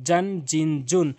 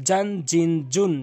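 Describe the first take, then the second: No difference in how they are said.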